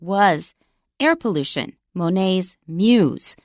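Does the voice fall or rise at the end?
fall. The pitch falls at the end. It is a statement. "if this were a statement with a falling intonation"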